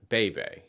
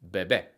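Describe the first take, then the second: First: "bebe" with English vowels, slow; anglicized bebe. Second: "bebé" with short crisp e vowels, stress on last; Spanish bebé. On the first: Teacher showing the anglicized version, a bit slow. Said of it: "With a more anglicized sound". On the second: Teacher modeling the Spanish version, crisp vowels. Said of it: "to sound more Spanish, you want to say". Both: Shown as a demonstration.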